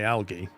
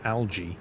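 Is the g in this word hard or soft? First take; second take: hard; soft. First: The g is hard, as in go. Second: The g is soft, like a j. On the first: "But I say algae" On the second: "I never say it as a J"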